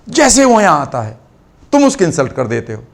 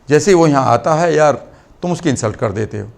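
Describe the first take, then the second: First: 'Jaise hi' is said with strong emphasis. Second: 'Jaise hi' is said plainly, without emphasis.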